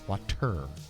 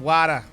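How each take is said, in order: First: Said in an English accent, with a crisp t. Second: Said in a Boston accent, with no final r. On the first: "in England, they have water because there's a T" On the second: "In Boston, they have Wada"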